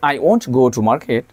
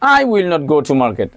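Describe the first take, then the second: First: The words 'will not' are contracted to 'won't'. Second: The words 'will not' are said in full.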